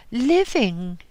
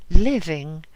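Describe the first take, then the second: First: Blurted out, higher and louder; abrupt answer. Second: Much louder, hammered home; loud repeated answer. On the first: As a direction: snap the word out at once. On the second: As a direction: repeat it hard, almost crying out. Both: Acted. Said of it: "she answered abruptly".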